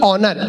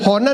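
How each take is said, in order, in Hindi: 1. शब्द की शुरुआत स्वर की आवाज़ से होती है। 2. शब्द की शुरुआत H की आवाज़ से होती है। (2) "होनर नहीं"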